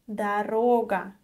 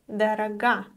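First: The stress falls on the middle syllable. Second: The stress falls on the final syllable. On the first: The word means a road. The speaker calls it right. "If you mean a road, you need to say дорога" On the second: The word means something other than a road. The speaker calls it wrong. "sometimes students make a common mistake. They say дорога, and дорога is another word in Russian"

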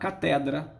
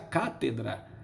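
First: The stress is on the second syllable. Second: The stress is on the first syllable. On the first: This is the common people's pronunciation. "Em latim vulgar" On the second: This is the classical, learned pronunciation. "No latim clássico, o latim da elite"

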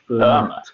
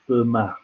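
First: The final t is sounded. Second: The final t is silent. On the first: The speaker calls it wrong. "although it looks like Fermat" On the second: The speaker calls it right. "in French you don't pronounce the last letter, so it's Fermat"

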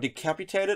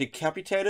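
First: The middle consonant is said like 'k'. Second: The same.

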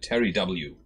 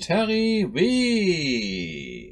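First: The letter W is read the English way. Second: The letter W is read the German way.

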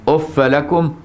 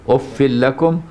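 Both takes have the same delivery.

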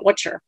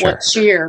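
First: The words run together into one word. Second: Both words are said fully and separately.

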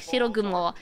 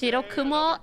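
First: The middle consonant is a soft g sound. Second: The middle consonant is a hard k sound.

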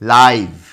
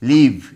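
First: The vowel is an 'eye' sound. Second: The vowel is a short 'i' sound. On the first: It is an adjective meaning direct or alive. "তখন এটার উচ্চারণ হবে লাইভ" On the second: It is a verb meaning to reside somewhere. "এই শব্দটির উচ্চারণ হবে লিভ"

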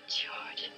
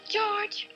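First: It is said at a lower pitch. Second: It is said at a higher pitch.

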